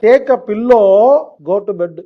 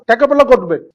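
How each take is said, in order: First: The phrase is said slowly. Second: The phrase is said quickly. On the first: The speaker calls it right. "மெதுவா சொல்றவங்களுக்கு புரியும்" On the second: The speaker calls it wrong. "Speedo சொல்றவங்க உங்களுக்கு புரியல"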